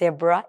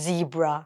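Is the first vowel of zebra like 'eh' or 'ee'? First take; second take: eh; ee. First: The first vowel is a short 'eh' sound. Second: The first vowel is a long 'ee' sound. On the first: The speaker calls it wrong. "আমরা অনেকেই কিন্তু বলে থাকি জেব্রা" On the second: The speaker calls it right. "It's জিব্রা"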